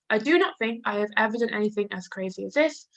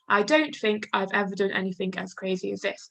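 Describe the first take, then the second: First: Do not and have are said in full. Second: Do not and have are said as contractions. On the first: It sounds more formal. "I do not" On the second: It sounds more informal. "We could turn that into a contraction, couldn't we, to make it more informal?"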